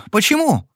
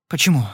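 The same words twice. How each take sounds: First: Alarmed repeat. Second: Said in the usual way. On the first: Acted. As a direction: fling the question up in alarm. Lili refuses the drink. (испуганный повтор, гораздо выше)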